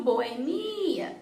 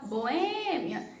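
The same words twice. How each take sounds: First: BoeMIa com o I esticado; tônica no MI. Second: BoÊmia com o Ê esticado; tônica no Ê. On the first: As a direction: alongue e reforce o MI de boemia. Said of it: "e não boemia". (boemia com ênfase demorada no I) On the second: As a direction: alongue e reforce o Ê de boêmia. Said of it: "tem que ser onde está o acento". (boêmia com ênfase demorada no Ê) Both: Shown as a demonstration.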